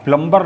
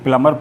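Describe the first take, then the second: First: A b sound follows the m. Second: No b sound follows the m. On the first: The speaker calls it wrong. "ना पढ़कर" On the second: The speaker calls it right. "इसे प्लमर पढ़ते हैं"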